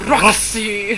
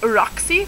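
First: Hammed-up stage delivery of the name; theatrical. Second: Said in the usual way. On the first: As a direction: declaim it like an actor dog. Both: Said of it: "They're very theatrical dogs".

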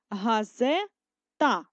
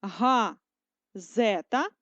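First: Газета drawn out slowly in a different split; slow second split of газета; slow split another way. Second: Газета stretched into syllables, very slow; slow split of газета; slow syllable dictation. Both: Shown as a demonstration. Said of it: "продовжуємо вже з маленької літери".

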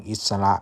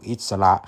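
No difference in how they are said.

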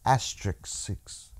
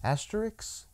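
First: "Asterisk six" slow and low, stumbling as "ASS-trick-six"; low, slow, botched "Asterisk six", falling at the end; fumbled pronunciation. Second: "Asterisk" tried softly as a question, "ASS-ter-icks"; hesitant, hushed go at "Asterisk", ending in "-icks"; unsure pronunciation. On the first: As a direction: sound out "Asterisk six" quietly, piece by piece. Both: Real, not acted. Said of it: "I don't know how to say it".

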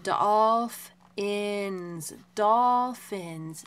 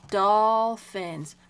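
First: "Dolphins" loud, first broken into "dolf" and "ins", then whole; blending the sounds. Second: "Dolphins" said loud and drawn out as one word; teacher's emphatic "Dolphins", both syllables clear; word shown clearly. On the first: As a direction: blend "Dolphins" loudly piece by piece, then join it. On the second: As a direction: present "Dolphins" loudly and distinctly. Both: Shown as a demonstration. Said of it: "see this word?".

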